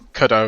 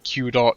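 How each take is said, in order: First: It rhymes with Godot, starting with a K sound. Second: It starts with the letter name Q, then dot. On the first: "like waiting for Godot pronunciation" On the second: "other pronunciations like Q dot"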